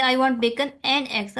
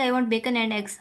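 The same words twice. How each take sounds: First: Emphasise "and" in its strong form; "and" stressed and fully pronounced. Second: Said in the usual way. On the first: Shown as a demonstration. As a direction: make "and" stand out between "bacon" and "eggs". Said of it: "stress हो रहा है". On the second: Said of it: "अगर हम लोग इसको ऐसे पढ़ जाएंगे".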